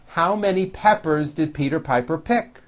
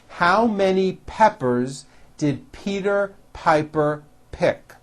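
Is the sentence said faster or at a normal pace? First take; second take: faster; normal. First: It is said at a faster pace. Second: It is said at a normal pace.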